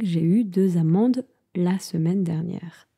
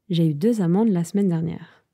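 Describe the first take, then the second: First: It is said at a normal pace. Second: It is said quickly, with reduced words.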